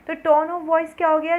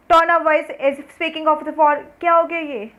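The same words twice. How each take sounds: First: Said in the usual way. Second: Loud, slow and rude, higher and louder; rude harsh tone. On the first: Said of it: "अब इस समय मैं आपसे बात कर रही हूँ तो मेरी टोन क्या है, पोलाइट वॉइस है". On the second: Shown as a demonstration. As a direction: bark the words at the listener rudely, dragging them out. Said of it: "और मैं ऐसे बात करूँ".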